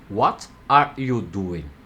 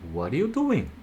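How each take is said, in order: First: Each word is said separately and clearly. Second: The words are run together and reduced. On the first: "aprendi palavra por palavra" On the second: "Se ouvirmos os nativos falarem, iremos ouvir"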